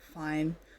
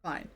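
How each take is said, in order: First: It sounds weary, detached and bitter. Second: It sounds sarcastic and mocking.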